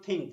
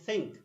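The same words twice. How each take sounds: First: The th is a hard stop sound. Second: The th is a soft hissing sound. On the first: The speaker calls it wrong. "it is not think" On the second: The speaker calls it right. "Between s and tha, it is between them. ... It is think"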